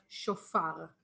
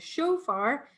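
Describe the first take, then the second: First: It is said the Israeli way. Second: It is said the North American way.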